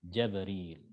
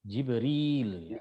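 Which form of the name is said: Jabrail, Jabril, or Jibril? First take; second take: Jabril; Jibril. First: It begins with 'ja' and ends in '-ril'. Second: It begins with 'ji' and ends in '-ril'. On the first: This is the reading of Ibn Kathir of Mecca. "Jim fathah, ba sukun, ro kasroh, ya sukun dan lam" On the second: This is the reading of Hafs and the majority. "Kalau Hafs bacanya gimana? Jibril ya"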